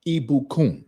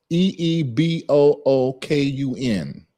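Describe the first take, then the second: First: Ibukun said at normal speed as one smooth word, ee-boo-koon; whole word smoothly. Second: Ibukun broken into slow separate sounds, E E B O O K U N; sounded out slowly. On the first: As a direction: say Ibukun in one easy go after spelling it out. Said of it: "that's the pronunciation". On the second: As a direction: spell out each sound of Ibukun slowly, one by one. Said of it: "I'm spelling the enunciation". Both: Shown as a demonstration.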